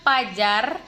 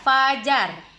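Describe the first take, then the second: First: The word begins with a p sound. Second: The word begins with an f sound. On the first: The speaker calls it wrong. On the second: The speaker calls it right. "contoh kata-kata yang benar"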